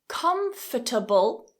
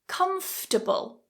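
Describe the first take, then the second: First: The word is said with four syllables. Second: The word is said with three syllables. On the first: "Comfortable with four syllables" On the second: "comfortable with three syllables. This way is typically more common"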